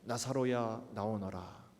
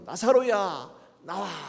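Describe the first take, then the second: First: It is said softly and quietly. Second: It is said loudly and forcefully.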